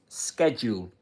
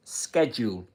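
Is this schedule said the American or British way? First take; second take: American; American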